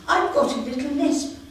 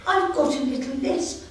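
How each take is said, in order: Both takes have the same delivery.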